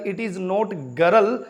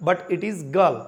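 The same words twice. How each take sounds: First: Put-on girl said slowly, with the r sounded, as "gəɾəl"; girl stretched with the r pronounced; wrong pronunciation. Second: Put-on girl said short, with a silent r, as "gəl"; girl clipped, no r at all; right pronunciation. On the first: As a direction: roll out an r in girl on purpose. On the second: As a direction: drop the r in girl, British style. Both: Shown as a demonstration.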